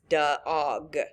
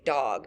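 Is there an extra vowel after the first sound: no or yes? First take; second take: yes; no. First: An extra uh sound follows the d. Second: The d goes straight into the vowel. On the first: The speaker calls it wrong. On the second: The speaker calls it right.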